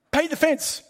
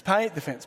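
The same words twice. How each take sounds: First: Mock sensei command. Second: Said in the usual way. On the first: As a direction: belt out "Paint the fence" like a drill order. Acting out Miyagi's command.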